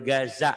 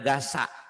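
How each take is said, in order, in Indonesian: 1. Konsonan tengahnya adalah bunyi z bersuara. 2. Konsonan tengahnya adalah bunyi s tak bersuara. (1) "jalur Gaza" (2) "bukan jalur Gaza"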